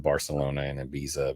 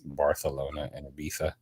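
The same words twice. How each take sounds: First: The c and z sound like s. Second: The c and z sound like th.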